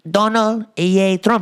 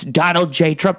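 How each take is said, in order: First: The middle letter starts with a Y sound. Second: The middle letter starts with a J sound. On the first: "They say Donald Yay Trump" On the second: "It's Donald J. Trump"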